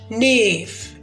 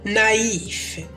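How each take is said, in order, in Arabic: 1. تندمج الحركتان في صوت واحد، فهو مقطع واحد. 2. تُنطق الحركتان منفصلتين، فهما مقطعان. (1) "ما ننطقش نيف" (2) "ننطق نايف"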